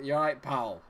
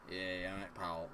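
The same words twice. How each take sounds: First: Scottish street greeting; Scottish accent. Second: Low, quiet Scottish menace; threatening Scottish accent. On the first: Streamer shows how Scots greet people, Scottish accent. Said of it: "when you say it in a Scottish accent". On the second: A Scot's greeting that sounds like trouble, low threatening Scottish accent. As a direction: drop into a soft, slightly threatening Scottish greeting. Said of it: "It sounds slightly threatening". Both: Acted.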